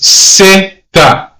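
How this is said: The word begins with an 's' sound. The speaker is from Latin America. "if you're born in Latin America, you're going to pronounce the letter as zeta"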